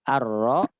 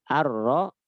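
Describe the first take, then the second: No difference in how they are said.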